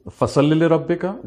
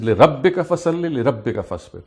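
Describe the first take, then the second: First: Emphasize the command فَصَلِّ; stress on the verb. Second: لِرَبِّكَ pushed to the front and stressed; emphasize لِرَبِّكَ over the verbs. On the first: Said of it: "the stress is on the verb". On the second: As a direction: punch لِرَبِّكَ, for your Lord alone. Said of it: "the stress is actually on لِرَبِّكَ". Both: Shown as a demonstration.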